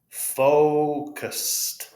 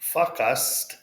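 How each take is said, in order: First: The first vowel is a long O sound. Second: The first vowel is a short sound. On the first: The speaker calls it right. "It's a long O" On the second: The speaker calls it wrong. "It's not fuckust"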